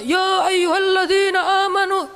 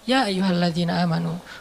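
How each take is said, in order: First: It is recited in a loud, shouting voice. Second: It is recited in a calm, relaxed voice.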